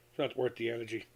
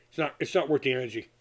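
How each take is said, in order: First: Softer, settled repeat of "It's not worth the energy"; quietly repeating to himself. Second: Said in the usual way. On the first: Real, not acted. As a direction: let the repeat drop away quietly. Repeats the point more softly.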